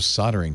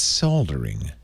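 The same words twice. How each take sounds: First: The word is said without an L sound. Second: The word is said with a clear L sound. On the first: This is the American way of saying it. The speaker calls it wrong. "I say it wrong" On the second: This is the British way of saying it. The speaker calls it right. "All our British fans, it's, it's Leo. It's soldering"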